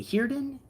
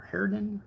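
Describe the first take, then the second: First: "Heerden" with a long EE, like "here-den"; HEER pronunciation. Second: "Herden" with an open EH, like "hair-den"; HAIR pronunciation. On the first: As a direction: say "Heerden" with first syllable rhyming with "beer". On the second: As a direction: say "Herden" with first syllable rhyming with "air". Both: Shown as a demonstration. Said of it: "Is it Heerden or Herden?".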